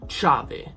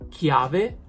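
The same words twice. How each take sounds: First: It begins with a soft ch sound. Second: It begins with a hard k sound. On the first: The speaker calls it wrong. "and not chiave" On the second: The speaker calls it right. "because of the H, it sounds like chiave"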